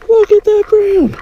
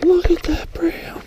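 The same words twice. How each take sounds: First: Much higher, thrilled exclamation; high excited cry. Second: Breathless, hushed whisper of awe; awed whisper. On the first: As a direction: burst out in delight at the catch. Angler shouting at big fish. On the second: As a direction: whisper it so you don't spook the fish. Angler whispering at big fish. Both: Real, not acted.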